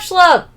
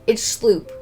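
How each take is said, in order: First: The name begins with an sh sound. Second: The name begins with a plain s sound. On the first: The speaker calls it wrong. "Oh no no no, it's Sloop" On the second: The speaker calls it right. "my second pronunciation was correct"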